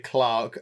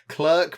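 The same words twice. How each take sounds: First: Clerk is said the British way, like clark. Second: Clerk is said the American way, like clurk.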